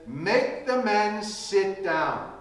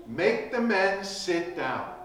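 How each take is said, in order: First: Slow, deliberate "Make the men sit down."; Jesus calmly ordering the disciples, slow and deliberate; slow command. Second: Said in the usual way. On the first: Retold or imitated. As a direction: lay out each word of "Make the men sit down." slowly. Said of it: "He says".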